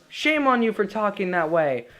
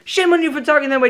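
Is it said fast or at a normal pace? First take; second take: normal pace; fast. First: It is said at a normal pace. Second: It is rushed out very fast.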